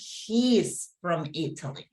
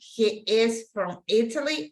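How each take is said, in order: First: 'He is' is shortened to one syllable. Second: Both words 'he is' are said separately. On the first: "Do you notice the difference?" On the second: "Do you notice the difference?"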